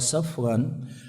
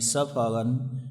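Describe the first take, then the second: First: No vowel is heard between f and r. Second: A vowel is heard between f and r. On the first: "atau di sukun" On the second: "di fathah pada huruf fa"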